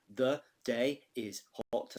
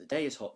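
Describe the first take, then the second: First: Slow, each syllable of The day is hot counted out; counting syllables. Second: Said in the usual way. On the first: Shown as a demonstration. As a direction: beat out The day is hot slowly. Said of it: "four syllables". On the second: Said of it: "each of those three lines has got ten beats".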